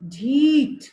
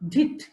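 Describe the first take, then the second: First: The first vowel is held long. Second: The first vowel is cut short. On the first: The speaker calls it right. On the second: The speaker calls it wrong.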